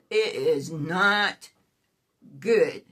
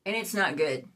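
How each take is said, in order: First: "not" drawn out slowly, pause before "good"; slow it down, land on "not", then "good" alone; deliberate, separated words leaning on "not"; stress on "not". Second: Said in the usual way. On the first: Real, not acted. Restates verdict with emphasis.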